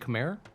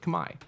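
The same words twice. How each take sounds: First: The name is pronounced in an anglicized way. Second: The name is pronounced in a native-like way. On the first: This is the form English speakers picked up from French. The speaker calls it wrong. "that's just how English speakers tend to say it" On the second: This is closer to how Cambodians say it. The speaker calls it right. "the native pronunciation is actually more like Khmer"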